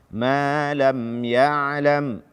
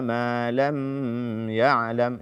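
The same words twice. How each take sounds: First: The m sound is released without holding. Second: The m sound is held before the next syllable. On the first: The speaker calls it right. "Karena dia adalah izhar syafawi" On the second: The speaker calls it wrong. "Ini tidak dibenarkan"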